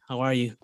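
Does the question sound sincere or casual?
casual. It is asked casually, in passing.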